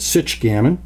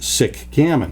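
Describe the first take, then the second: First: The first word ends in a ch sound. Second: The first word ends in a k sound. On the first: The speaker calls it right. "pronounce the C H as you would in the word checker" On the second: The speaker calls it wrong. "Why am I not calling it sick gammon?"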